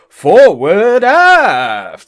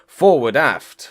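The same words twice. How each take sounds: First: Every sound is exaggerated and heavily over-enunciated. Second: Every sound is said casually and naturally. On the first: The speaker calls it wrong. "massively over-enunciating everything" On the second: The speaker calls it right. "instead of just saying"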